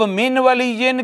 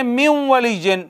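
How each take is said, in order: First: Said in the usual way. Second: "मिम वली जिन" with the n melted into a nasal doubled w; इदगाम के साथ. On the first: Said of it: "अब मिन वली जिन के". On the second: Shown as a demonstration. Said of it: "ये शद लग गई". ("मिम वली जिन" में नून को वाव में मिलाकर)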